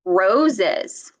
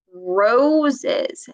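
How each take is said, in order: First: Roses with a clear curled R, falling; model word repeated. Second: Roses with a clear curled R; model word. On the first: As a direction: repeat Roses for the child to copy. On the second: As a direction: say roses slowly with the tongue back. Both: Shown as a demonstration. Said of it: "Say roses".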